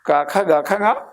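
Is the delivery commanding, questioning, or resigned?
questioning. It is said in a questioning, hesitant way. The speaker asks whether they should leave. "ഞാൻ പോണോ?"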